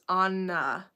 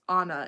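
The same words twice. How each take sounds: First: The middle N sound is held long. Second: The middle N sound is short. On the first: The speaker calls it right. "Why else would it be two N's" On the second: The speaker calls it wrong. "it's not even just Anna"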